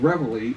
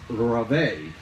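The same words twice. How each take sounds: First: The word is said with an American pronunciation. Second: The word is said with a French-style pronunciation. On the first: This is how it is said today. "the pronunciation of reveille is sort of an American uh, thing" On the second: This is how it was said in earlier times. "back then, believe it or not, the, the pronunciation was reveille, because just like all bugle calls during the Civil War, they were derived from the French"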